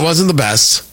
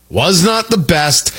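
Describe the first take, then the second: First: Said in the usual way. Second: Slow, deliberate "Was not the best"; emphatic restatement. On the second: Real, not acted. Host conceding the fighter's last bout, emphatic and slow on "Was not the best". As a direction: spell out "Was not the best" word by word, slowly.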